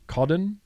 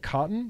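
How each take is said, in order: First: The middle consonant is a D sound. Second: The middle consonant is a clear T sound. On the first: "They say codden with D's in it" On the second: "they don't say cotton because they're Australian"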